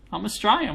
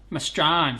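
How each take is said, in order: First: Said in the usual way. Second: "Australian" squashed into "Strayn", the first syllable dropped; slurred Strine. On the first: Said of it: "We tend to slur our words". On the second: Shown as a demonstration. Streamer answering teasing about his accent, slurred Strine "Australian". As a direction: slur "I'm Australian" into one short "m'Strayn", a bit lower. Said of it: "We tend to slur our words together".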